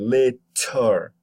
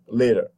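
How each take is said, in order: First: The middle consonant is a full, crisp t. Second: The middle consonant is a short voiced tap. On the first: The speaker calls it wrong. "you don't say later" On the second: The speaker calls it right. "You make the t into a d"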